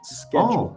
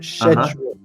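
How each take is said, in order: First: It is said with an American pronunciation. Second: It is said with a British pronunciation.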